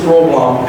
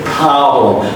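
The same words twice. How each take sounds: First: The O vowel is short and unstretched. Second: The O vowel is long, stretched and higher. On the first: The speaker calls it wrong. "This would have no impact" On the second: The speaker calls it right. "you have to stretch the O as a higher pitch"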